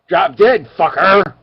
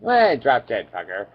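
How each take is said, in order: First: It is said in an angry tone. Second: It is said in a casual tone.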